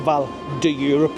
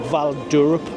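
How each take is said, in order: First: The 'de' is a separate syllable before 'Europe'. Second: The 'de' is merged into 'Europe' without a vowel. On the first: The speaker calls it wrong. "I always say Val de Europe" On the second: The speaker calls it right. "but it's like Val d'Europe"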